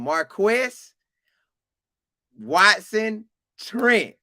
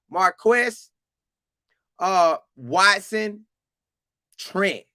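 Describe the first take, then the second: First: "Marquess Watson Trent" slow and deliberate, "Trent" hit hardest; emphatic name. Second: Said in the usual way. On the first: Shown as a demonstration. Host repeats the linebacker's name, slow and emphatic. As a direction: announce "Marquess Watson Trent" slowly, like a ring announcer. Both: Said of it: "I'ma say it again".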